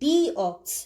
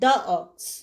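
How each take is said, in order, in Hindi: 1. 'the' को 'thee' कहा जाता है। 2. 'the' को 'thuh' कहा जाता है। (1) "এই ক্ষেত্রে টি এইচ এর উচ্চারণ সবসময় দি হবে" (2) "নট দ্য অক্স"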